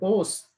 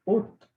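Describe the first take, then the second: First: The word ends with an s sound. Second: The word ends with a t sound. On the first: The speaker calls it wrong. "इसको लिखेंगे तो ओस" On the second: The speaker calls it right. "लेकिन पढ़ेंगे ओत"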